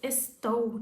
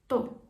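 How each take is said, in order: First: The word is said in full, two syllables. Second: The word is shortened to one syllable. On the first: "we can reduce this estou" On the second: "reduce this estou to to"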